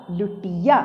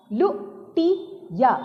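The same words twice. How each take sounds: First: Said in the usual way. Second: लुटिया in three slow, higher pieces, लु, टि, या; syllable by syllable. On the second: Shown as a demonstration. Teacher reading लुटिया for children, syllable by syllable. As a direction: sound out लुटिया with clear gaps. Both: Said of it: "ऐसे नहीं पढ़ना होता है".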